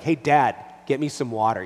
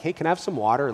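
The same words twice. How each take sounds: First: Put-on louder, demanding child; mock demanding child voice; bossy demand. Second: Put-on a child asking nicely; mild imitation of a polite child asking for water; polite request. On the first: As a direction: order it like a bossy kid. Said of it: "But when he's like". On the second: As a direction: ask sweetly, like a polite little boy. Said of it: "the difference when he's like".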